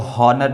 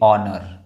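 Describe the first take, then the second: First: The initial h is sounded. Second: The initial h is silent. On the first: The speaker calls it wrong. "इसको हॉनर नहीं बोलेंगे" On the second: The speaker calls it right. "एच जो है वो silent है"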